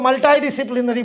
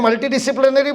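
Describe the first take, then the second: First: The first part is said 'mul-tie'. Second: The first part is said 'mul-tee'. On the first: This is how Americans would say it. "वो US वाले होते तो मल्टाई disciplinary बोलते" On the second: This is the speaker's own way of saying it. "मैंने मल्टी disciplinary बोला"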